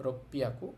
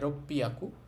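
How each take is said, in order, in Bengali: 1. মাঝে দ্বিত্ব p ধ্বনি আছে। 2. মাঝে দ্বিত্ব p ধ্বনি আছে।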